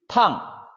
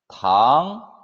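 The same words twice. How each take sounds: First: The pitch falls sharply from high to low. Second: The pitch rises from mid to high. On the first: It means hot or to scald. "사성" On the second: It means sugar or candy. "이성"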